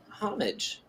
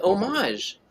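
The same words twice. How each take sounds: First: "homage" as HOM-ij, softly with sounded H; English pronunciation. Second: "homage" as oh-MAHZH, silent H; French-style pronunciation. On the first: Answering which is right, soft English "homage" as HOM-ij. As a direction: say "homage" quietly, HOM-ij, stress first. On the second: Wondering if it's the other way, French-style "homage" as oh-MAHZH. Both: Shown as a demonstration. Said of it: "they pronounce it differently".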